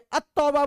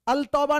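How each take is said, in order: First: The 'l' is dropped and 't' is doubled. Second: The 'l' is pronounced clearly before 't'. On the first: The speaker calls it right. "अत्तौबा बोलते हैं" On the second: The speaker calls it wrong. "अल तौबा नहीं बोलते"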